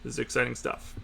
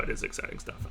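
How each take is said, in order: First: It is said in a flat, unexcited tone. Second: It is said in a genuinely excited tone.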